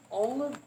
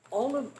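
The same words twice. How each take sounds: The two takes are said the same way.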